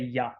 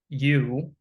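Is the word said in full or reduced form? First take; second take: reduced; full. First: The word has a short, reduced vowel. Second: The word has a full, clear vowel. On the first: "or you can say yeah occasionally" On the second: "you can pronounce the word Y O U like you"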